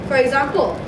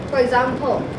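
The two takes are said the same way.

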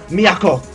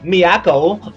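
First: The name is pronounced with Japanese-style sounds. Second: The name is pronounced with English-style sounds. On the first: The speaker calls it right. "let's say Japanese style" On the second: The speaker calls it wrong. "I probably destroyed the Japanese pronunciation of that"

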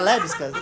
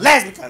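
First: The word is said softly and lightly. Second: The word is said harshly, like in an argument. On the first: It sounds gentler and friendlier. The speaker calls it right. "fica mais leve" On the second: It sounds like an insult or a fight. The speaker calls it wrong. "parece que tá brigando"

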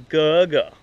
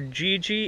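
First: The vowels sound like 'uh'. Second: The vowels sound like 'ee'. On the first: The speaker calls it right. "It is not as Guga" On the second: The speaker calls it wrong. "we would think that is Gigi"

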